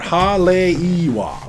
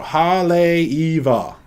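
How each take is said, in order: First: The consonant before the last vowel sounds like 'w'. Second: The consonant before the last vowel sounds like 'v'. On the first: The speaker calls it wrong. "this person said Haleiwa" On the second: The speaker calls it right. "That's my definitive pronunciation"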